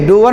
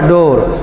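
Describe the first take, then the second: First: The vowel is oo gliding to uh. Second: The vowel is a long oh. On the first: The speaker calls it wrong. "डूअर नहीं बोलेंगे" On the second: The speaker calls it right. "इसका तो और हट के हुआ डोर"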